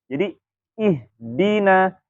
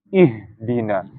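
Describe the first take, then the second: First: The h is narrowed and breathy in the throat. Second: The h is pushed down from the chest. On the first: The speaker calls it right. "dengan menyempitkan makhraj" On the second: The speaker calls it wrong. "memindahkan makhraj hak kemana? Ke dada"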